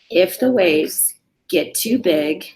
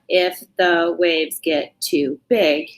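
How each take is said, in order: First: The words are joined smoothly into short phrases. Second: Each word is read separately with breaks between. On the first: The speaker calls it right. "we're putting two to three words together" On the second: The speaker calls it wrong. "So it's not"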